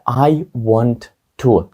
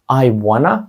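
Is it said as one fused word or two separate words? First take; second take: separate; fused. First: The two words are said separately and fully. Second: The two words run together as one fused word.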